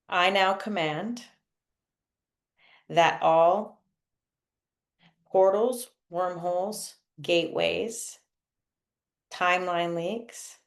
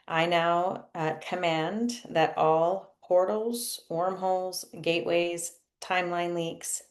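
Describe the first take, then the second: First: It is said slowly. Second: It is said at normal speed.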